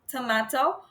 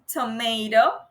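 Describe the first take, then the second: First: It is said in a British accent. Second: It is said in an American accent. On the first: "in British English, they don't say tomato because they say tomato" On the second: "in U S A, and people say tomato"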